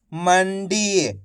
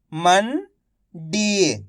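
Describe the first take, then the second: First: "मंडी" blended into one word; syllables joined. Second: "मंडी" split slowly, pause before डी; syllable by syllable. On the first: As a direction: say "मंडी" whole, without the pause. ("मंडी" मिलाकर एक शब्द में) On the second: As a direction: sound out "मंडी" as मन, then डी. ("मंडी" को तोड़कर, धीरे-धीरे) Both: Shown as a demonstration. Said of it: "एक एक अक्षर का उच्चारण करके".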